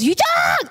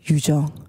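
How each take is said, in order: First: The name is screamed loudly. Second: The name is said quietly and calmly.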